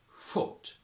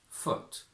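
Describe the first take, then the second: First: The vowel is further back and more rounded. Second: The vowel is central, close to a schwa.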